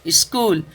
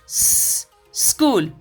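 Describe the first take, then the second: First: An extra vowel is added before the s. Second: The word begins directly with the s. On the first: The speaker calls it wrong. "जो ई का उच्चारण करते हैं ना, इस करने में वो कहीं ना कहीं से बड़ा ही ऑकवर्ड लगता है" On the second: The speaker calls it right. "बस स कर देना है"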